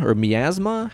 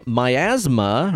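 First: Miasma said as mee-AZ-ma, EE in first syllable; pronunciation. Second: Miasma said as my-AZ-ma, long I in first syllable; pronunciation. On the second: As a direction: say Miasma with MY at the start. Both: Shown as a demonstration. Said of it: "How do you say it?".

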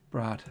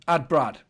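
First: Said in the usual way. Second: Loud and emphatic; loud voice command. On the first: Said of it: "voice command to phone". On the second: Shown as a demonstration. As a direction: say it louder for the phone. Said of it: "repeats voice command louder".

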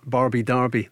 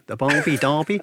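First: Said in the usual way. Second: Attempted Australian accent. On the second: Presenter joking about the homecoming fixture's nickname, attempted Australian accent. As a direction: have a playful go at an Australian accent. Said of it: "If I could do an Australian accent".

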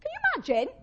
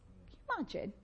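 First: High, loud, incredulous question; astonished, pitched right up; amazed exclamation. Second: Softly, under the voice; hushed wonder. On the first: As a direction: squeal it in amazement. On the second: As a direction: marvel at it quietly. First take, then exclaimed repeat. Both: Real, not acted.

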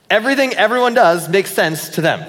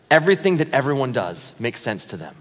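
First: "Everything" hit higher and louder, line driven hard; emphatic repeat. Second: Said in the usual way. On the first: Shown as a demonstration. Pastor repeats his big line louder for the congregation. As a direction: punch "Everything" and push the whole line out loud. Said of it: "give you a minute to catch your breath". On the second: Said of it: "Here we go".

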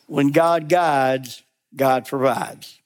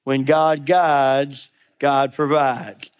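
First: "When God guides, God provides" spoken slowly with weight on "God"; slow, emphatic motto. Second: "When God guides, God provides" said slowly, each "God" stressed; slow, repeated motto. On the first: Preacher slowly states the motto before the congregation repeats it. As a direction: plant each word of the motto firmly. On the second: Preacher leads the congregation through the motto. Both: Shown as a demonstration. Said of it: "Say that with me".

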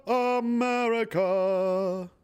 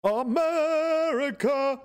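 First: Sung, let the second "America." fall as the anthem ends; mock-sung America. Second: Drawn-out high sung America, hammed up like an anthem; sung, belt "America," slowly and high like a mock patriotic song. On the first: Sung, ending his mock anthem with a slow falling note. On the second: Mocking his country, he sings a slow high anthem.

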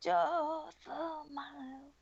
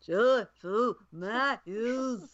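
First: Slow, stretched rock-singer take on Joyful Miles; [name] impression. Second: Slow, drawn-out mumbled singer voice; [name] impression. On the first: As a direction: croon it slowly like a raspy rock ballad. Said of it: "Or [name]". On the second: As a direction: drag the words out lazily like a folk singer. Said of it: "I'll do [name]".

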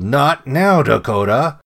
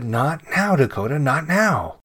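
First: Loud, exasperated yell at a dog. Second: Higher-pitched brush-off, not yelled; dismissive. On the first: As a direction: yell it much louder than the narration. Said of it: "I yelled". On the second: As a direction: shoo the dog off without shouting. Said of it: "waved my hand in the air and said". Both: A narrator's reading.

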